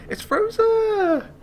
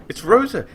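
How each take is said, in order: First: High, slow, loud sing-song It's Rosa; greeting Rosa with a long happy call; drawn-out delighted call. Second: High loud It's Rosa; excited cry. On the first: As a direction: stretch it out in joy. Repeats, calling out. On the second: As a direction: shout her name with glee. First call. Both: Real, not acted.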